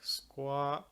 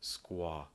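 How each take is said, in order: First: The vowel is tense and higher in the mouth. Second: The vowel is relaxed and lower in the throat. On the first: This is the British way of saying it. "if it's tenser, it'll sound like squaw" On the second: This is the American way of saying it. "if it's more relaxed and a little lower in your throat"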